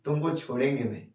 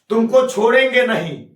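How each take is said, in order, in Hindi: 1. यह गर्म, प्यार भरे लहजे में कहा गया है। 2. यह कड़े, डांटने वाले लहजे में कहा गया है। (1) "प्यार से बोले" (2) "डांट के बोलूं"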